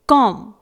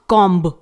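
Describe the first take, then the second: First: No b sound is heard after the m. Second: A b sound is heard after the m. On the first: The speaker calls it right. "It is कॉम" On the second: The speaker calls it wrong. "नॉट कॉम्ब"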